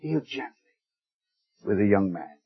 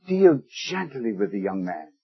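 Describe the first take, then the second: First: Much softer, a near-hushed echo of the plea. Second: Soft, low, tender plea for a son. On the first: Preacher echoing David's plea, hushed and tender. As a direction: let the repeat fall almost to a hush. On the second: Preacher quoting David's soft plea for his son. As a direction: plead gently as a loving father would. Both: Retold or imitated. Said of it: "And the last word".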